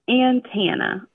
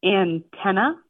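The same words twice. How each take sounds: First: Antenna with ANN stressed first, second vowel like tan; antenna, ann-tan-uh slowly; husband's antenna. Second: Antenna with a short i-like first vowel, stress on ten; antenna, ten in the middle stressed; her antenna. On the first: Retold or imitated. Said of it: "he says it antenna". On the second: Shown as a demonstration. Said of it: "So the way I say it".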